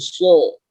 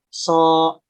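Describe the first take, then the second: First: The syllable sounds thick, with a raised tongue root. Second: The syllable sounds thin, with a flat tongue root. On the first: The speaker calls it right. "Kalau pangkal lidahnya dinaikkan, maka suaranya akan menggelembung" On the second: The speaker calls it wrong. "Kalau pangkalnya datar, maka suara yang dihasilkan itu tipis"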